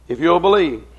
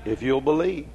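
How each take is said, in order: First: Loud, insistent preacher's repeat; emphatic appeal. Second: Said in the usual way. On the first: Real, not acted. Preacher urging the congregation toward heaven, loud emphatic appeal. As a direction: drive the appeal home loudly.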